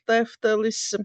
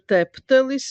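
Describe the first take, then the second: First: The middle consonant is an f sound. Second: The middle consonant is a p sound. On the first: "instead of Teftelis" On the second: "substituted substitute it with P"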